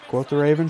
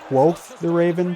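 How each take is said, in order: First: The first word ends with a t sound. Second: The first word ends with a th sound. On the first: The speaker calls it wrong. "I've been saying quote" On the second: The speaker calls it right. "it's actually quoth"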